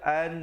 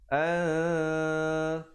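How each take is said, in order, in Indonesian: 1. Bunyi n diucapkan dengan jelas dan singkat. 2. Bunyi n samar, sengau, dan ditahan lama. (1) "jangan baca an. Kalau an bunyi jelas, bunyi izhar" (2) "ikhfa dua harakat"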